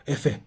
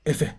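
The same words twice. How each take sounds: The two takes are said the same way.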